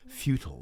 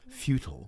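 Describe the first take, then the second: First: It is said with an American accent. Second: The same.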